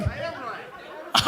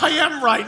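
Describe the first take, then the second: First: Slow, breathless mumble to himself; mock mumble. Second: Said in the usual way. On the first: Comic mocking a heckler muttering to himself. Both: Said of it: "Now he's just talking to himself".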